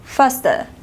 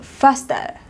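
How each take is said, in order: First: It is said in a British accent. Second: It is said in a British accent.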